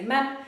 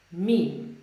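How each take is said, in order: First: "mem" with a short open e; Polish pronunciation. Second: "meme" with a long ee; English pronunciation. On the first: Teacher contrasting Polish with English for learners, "mem" said the Polish way. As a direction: give "mem" its Polish short e, rhyming with "them". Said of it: "In Polish, we say mem". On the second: Teacher showing learners the English word after the Polish, "meme" with long ee. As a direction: say "meme" as one syllable rhyming with "team". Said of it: "but in English, we say". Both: Shown as a demonstration.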